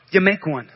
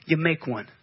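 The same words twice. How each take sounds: First: Said in the usual way. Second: Much lower and softer, almost to himself; dropped low and soft. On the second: Acted. Preacher repeating the point to the congregation, low and soft. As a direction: let it sink in quietly.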